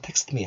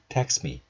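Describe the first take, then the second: First: The t before 'me' is clearly pronounced. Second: The t before 'me' is dropped. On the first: The speaker calls it wrong. "애써서 text me 하지 않고요" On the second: The speaker calls it right. "text me 이렇게 발음을 한다"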